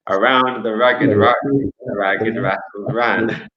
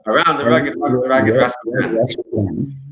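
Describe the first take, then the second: First: It is said fast. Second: It is said very fast.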